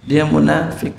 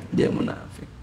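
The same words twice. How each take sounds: First: Said in the usual way. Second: Whispered echo. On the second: Acted. Preacher warning the congregation, dropping to a whisper. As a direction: fade the repeat into a near-silent whisper.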